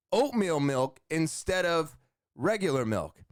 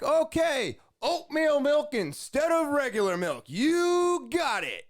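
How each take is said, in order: First: Said in the usual way. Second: Very high, hyped-up drive-thru voice; imitated high-energy yelling. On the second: Drive-thru worker confirming the milk swap, high-energy yelling. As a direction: belt it back with huge enthusiasm, stretching the sign-off. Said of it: "this guy has so much energy".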